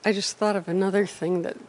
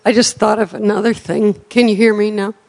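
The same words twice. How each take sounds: First: Soft, hard to hear; barely audible mumble; too quiet. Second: Speaking up. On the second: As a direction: project so everyone hears. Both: Real, not acted. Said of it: "Speak up, please".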